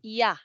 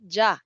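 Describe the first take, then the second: First: It begins with a y sound. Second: It begins with a j sound. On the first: The speaker calls it right. "It's ya" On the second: The speaker calls it wrong. "No, it's not ja"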